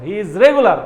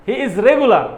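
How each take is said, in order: Both takes have the same delivery.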